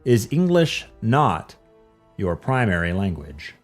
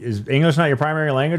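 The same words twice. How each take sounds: First: It is said slowly and deliberately. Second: It is said at a normal pace.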